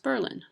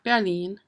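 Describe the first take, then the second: First: Berlin is said in an Americanized local way. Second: Berlin is said the way Germans say it. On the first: This is how the town's residents say it. The speaker calls it right. "It's pronounced Berlin" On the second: This is how the German city is said. The speaker calls it wrong. "not Berlin"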